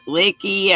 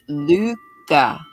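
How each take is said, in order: First: It is pronounced like "licky." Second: It is pronounced like "Luca." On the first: "some folks pronounced it licky" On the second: "they pronounced it Luca"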